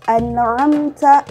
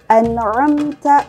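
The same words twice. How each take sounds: The two takes are said the same way.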